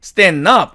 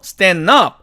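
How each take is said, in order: The two takes are said the same way.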